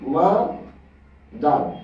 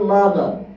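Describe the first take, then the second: First: The word is split into two separate syllables. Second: The word is said smoothly without a break.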